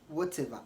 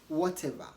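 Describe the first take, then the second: No difference in how they are said.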